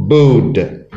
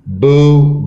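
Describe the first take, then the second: First: Booed with a clearly released d. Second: Said in the usual way. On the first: Shown as a demonstration. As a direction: add a voiced d to the end of booed. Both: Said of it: "Add E D".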